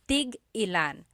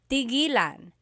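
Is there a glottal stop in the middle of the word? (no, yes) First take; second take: yes; no. First: A glottal stop breaks the word after tig. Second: The word runs smoothly without a glottal stop. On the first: It asks how many of each. "when there's a hyphen in it, you have to have that glottal stop" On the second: It means to stop. "When there's no hyphen, tigilan, It's just one word"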